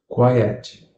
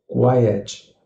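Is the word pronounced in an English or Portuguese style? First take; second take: English; English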